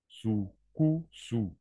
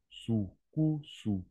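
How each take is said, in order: The two takes are said the same way.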